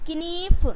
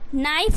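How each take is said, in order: First: A k sound is heard before the n. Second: No k sound is heard before the n. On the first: The speaker calls it wrong. "अगर के का उच्चारण आप करते हैं" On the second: The speaker calls it right. "जैसे ही आप के को सब में साइलेंट करोगे"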